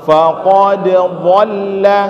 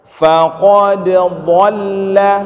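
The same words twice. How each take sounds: Both takes have the same delivery.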